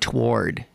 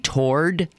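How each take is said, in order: First: It is said as two syllables, to-ward. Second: It is said as one syllable, like tord. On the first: The speaker calls it wrong. "I was saying toward, toward, and she just beat it out of me" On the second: The speaker calls it right. "I'm saying toward, like T O R D"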